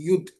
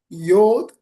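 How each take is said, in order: First: The vowel sounds like 'oo'. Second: The vowel sounds like 'oh'. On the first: "Yud also, Y U D" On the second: "some people they pronounce Yod"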